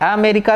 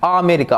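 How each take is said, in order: First: The word begins with a weak 'uh' sound. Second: The word begins with a clear 'ah' sound. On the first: The speaker calls it wrong. "अमेरिका नहीं" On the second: The speaker calls it right. "आपको पहला साउंड बताया था अमेरिका"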